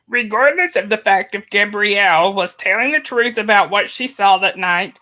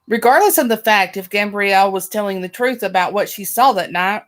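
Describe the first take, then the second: First: It is read in a Yoda voice. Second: It is read in a normal voice.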